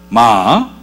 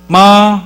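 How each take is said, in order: First: The pitch rises from mid to high. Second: The pitch stays high and level. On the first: "이성은 미에서 솔까지 올려야 돼요" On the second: "일성은 솔의 음으로 이렇게 이야기를 해주는 겁니다"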